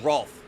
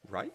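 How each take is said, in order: First: The name has the vowel of 'roll'. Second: The name has the vowel of 'ride'. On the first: The speaker calls it right. "I did make the Rolf sound" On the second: The speaker calls it wrong. "I read the R A L F as R A I F"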